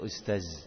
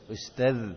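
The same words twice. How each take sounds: First: The word ends with a buzzing 'z' sound. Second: The word ends with a soft 'dh' sound. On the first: The speaker calls it wrong. "Jadi ustaz dibaca ustaz" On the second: The speaker calls it right. "Jadi ustaz dibaca ustaz"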